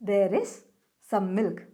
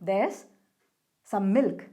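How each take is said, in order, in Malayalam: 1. 'There is' പൂർണ്ണമായ രണ്ട് വാക്കുകളായി പറയുന്നു. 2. 'There is' ഒരു സില്ലബിളിലേക്ക് ചുരുങ്ങുന്നു.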